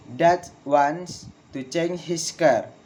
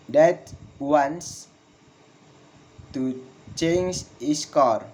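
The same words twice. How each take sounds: First: Measured sentence, falling on "car"; falling intonation. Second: Slow, long pause after "wants", "car" falling; slow falling intonation. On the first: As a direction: model the statement, "car" dropping at the end. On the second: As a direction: dictate it piece by piece. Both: Shown as a demonstration. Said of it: "Falling intonation in statement".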